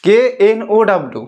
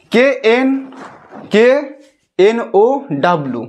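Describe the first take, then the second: First: K N O W in one run; letters linked in a single phrase; joined-up spelling. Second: K, N, O, W broken up by long pauses; spelled letter by letter. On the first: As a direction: spell K N O W without pauses. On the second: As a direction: spell haltingly, restarting at K. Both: Shown as a demonstration. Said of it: "উচ্চারণ".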